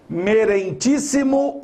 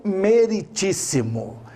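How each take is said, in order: First: "Merentíssimo" with a nasal "ren" in the middle; wrong form merentíssimo. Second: "meritíssimo" with a plain oral "ri", no N; correct form meritíssimo. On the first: Teacher offering the wrong option, nasal middle syllable. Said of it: "A palavra merentíssimo não existe". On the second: Teacher offering the right option, no nasal syllable. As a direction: say "meritíssimo" with clean RI before TÍS. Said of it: "você tem que dizer assim". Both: Shown as a demonstration.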